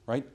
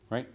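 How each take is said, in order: First: "Right?" lifted up at the end; rising right. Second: "Right?" with the pitch going down at the end; falling right. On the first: Coach showing the wrong tune on "Right?" for sales reps. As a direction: ask "Right?" with an upward tune. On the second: Coach showing the right tune on "Right?" for sales reps. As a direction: state "Right?" with a downward inflection. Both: Shown as a demonstration. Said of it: "downward inflection".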